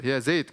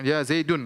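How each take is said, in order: First: "Zaid" cut short with no ending vowel. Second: "Zaidun" with nunation -un; wrong ending. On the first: A teacher shows how Arabs say it, "Zaid" with no ending. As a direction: clip it to "Zaid". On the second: A teacher shows the rejected form, "Zaidun" with -un. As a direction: sound the -un of "Zaidun". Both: Shown as a demonstration.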